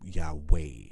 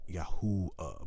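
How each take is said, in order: First: The middle has a W consonant sound. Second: The middle has an oo vowel sound. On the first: The speaker calls it wrong. "but that's not the proper pronunciation" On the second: The speaker calls it right. "It makes a oo sound"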